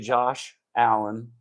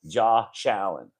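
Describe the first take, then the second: First: The sh ends Josh, and Allen starts cleanly. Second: It sounds like 'Jaw Shallen', the sh joining Allen. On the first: The speaker calls it right. "I still try to say Josh Allen because the man deserves the respect" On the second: The speaker calls it wrong. "saying his name like it's spelled J A W space S H A L L E N"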